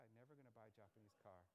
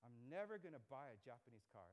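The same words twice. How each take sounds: First: Dad's line again, much softer and lower; muttering the father's vow under the breath; quiet repeat of dad. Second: A hint of a stubborn father, "never" leaned on; lightly voiced dad refusing flatly; imitating dad. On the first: Retold or imitated. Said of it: "Anybody have parents who said that?". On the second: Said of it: "my dad, he would always say".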